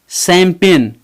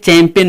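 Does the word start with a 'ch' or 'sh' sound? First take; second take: sh; ch. First: It begins with a 'sh' sound. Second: It begins with a 'ch' sound. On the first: The speaker calls it right. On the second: The speaker calls it wrong.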